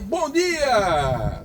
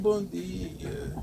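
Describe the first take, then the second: First: It is said loudly with lively energy. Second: It is said flatly with little energy.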